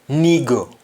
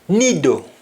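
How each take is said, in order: First: It has a g sound in the middle. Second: It has a d sound in the middle.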